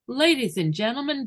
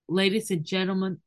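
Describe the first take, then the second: First: It is said in a stylized, rote announcing way. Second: It is said in a natural, conversational way. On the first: The speaker is reciting rote information. The speaker calls it wrong. "So it would become stylized" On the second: The speaker is really talking to the audience. The speaker calls it right. "Instead of saying"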